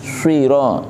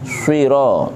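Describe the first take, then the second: First: The first consonant is heavy, with rounded lips. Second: The same.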